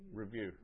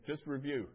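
First: Said in the usual way. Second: "review" louder and higher with a falling, firm finish; correcting the word. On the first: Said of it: "Sorry, yeah". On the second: Real, not acted. Student corrects the teacher's British word, firm "review". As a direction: put weight on "review" to correct "revise". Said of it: "Sorry, yeah, Dobson is British".

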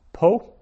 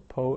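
First: Po said much higher and louder; emphatic citation. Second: Said in the usual way. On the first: Shown as a demonstration. Teacher modelling Po for Hebrew learners, high loud citation. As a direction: call out Po high and bright as the model word. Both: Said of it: "teacher drills Hebrew vocabulary".

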